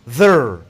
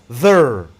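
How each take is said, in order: No difference in how they are said.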